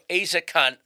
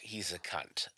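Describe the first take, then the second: First: It is said in a working-class British accent. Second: It is said in an upper-class British accent. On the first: "But there's also working class one" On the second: "There's the more upper class"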